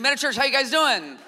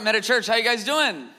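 First: It is said with more energy and force. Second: It is said with ordinary, lower energy.

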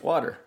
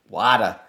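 First: It is said with a Texas accent. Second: It is said with a New York accent.

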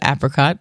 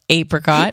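First: The first vowel is short, as in 'app'. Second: The first vowel is long, as in 'ape'. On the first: This is how most people say it. The speaker calls it right. "the rest of the world calls it apricot" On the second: This is the minority way of saying it. The speaker calls it wrong. "if you want to call it apricot, I will juice some apes for you"

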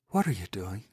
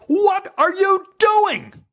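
First: It is delivered small and understated. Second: It is delivered big and exaggerated.

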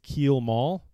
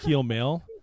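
First: The second syllable sounds like 'mall'. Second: The second syllable sounds like 'mail'. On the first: The speaker calls it wrong. "he's always reading it as keel mall" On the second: The speaker calls it right. "it's pronounced keel mail"

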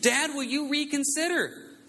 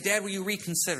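First: It is asked in a whiny, fussy tone. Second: It is asked in a plain tone.

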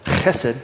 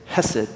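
First: The word starts with a rough, throaty sound. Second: The word starts with a plain, soft h sound. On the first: The speaker calls it right. "It's actually pronounced chesed" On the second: The speaker calls it wrong. "The Hebrew word for kindness there is hesed"

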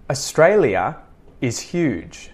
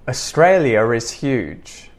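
First: The words are separated with no linking R. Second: The words are joined with a linking R. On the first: "I'm going to say the following sentences disconnected" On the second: "I'm going to connect it all together using the intrusive R"

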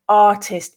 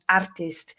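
First: The R is silent after a long vowel. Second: The R is pronounced after a short vowel. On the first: The speaker calls it right. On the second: The speaker calls it wrong.

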